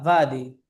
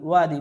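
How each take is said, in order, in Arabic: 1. تبدأ الكلمة بصوت يشبه v. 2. تبدأ الكلمة بصوت w مستدير. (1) "الأردية فا فادي" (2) "نقول وادي وادي بالواو"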